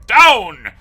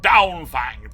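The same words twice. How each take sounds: First: "down!" yelled much louder and higher; yelled command. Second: Louder dog command "Down, Fang". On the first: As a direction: bark it at full force. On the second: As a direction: order the dog off firmly. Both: A narrator's reading. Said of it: "a loud command".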